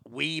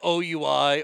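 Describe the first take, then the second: First: The name is pronounced like 'wee'. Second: The name is not pronounced like 'wee'. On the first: This is how most people say it. The speaker calls it right. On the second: This is how kids from the South said it. The speaker calls it wrong.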